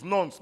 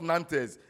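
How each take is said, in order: First: Nantes as one syllable, "nonts"; correct pronunciation. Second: Nantes as two syllables, "NAN-tez"; wrong pronunciation shown. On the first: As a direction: teach Nantes as "nonts", with an o vowel. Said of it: "Remember, it's Nantes". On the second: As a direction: show Nantes misread as spelt, "nan-tez". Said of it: "not Nantes". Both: Shown as a demonstration.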